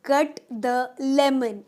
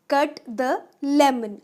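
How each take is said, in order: Both takes have the same delivery.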